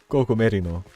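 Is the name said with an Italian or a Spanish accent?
Spanish. The name is said with a Spanish accent. "In español would probably be pronounced like that"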